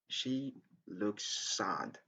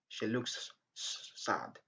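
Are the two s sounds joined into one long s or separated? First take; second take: joined; separated. First: The two s sounds join into one long s. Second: The two s sounds are said separately. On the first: The speaker calls it right. "Just say she looks sad" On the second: The speaker calls it wrong. "It's not good to say she looks sad"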